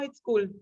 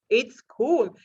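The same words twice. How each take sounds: First: The word cool is said flatly, without energy. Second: The word cool is said with lively energy. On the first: The speaker calls it wrong. "you don't use the word cool just like that" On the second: The speaker calls it right. "you have to put some energy into it"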